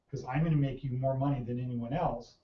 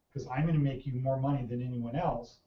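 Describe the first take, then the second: First: It is said with confident conviction. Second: The same.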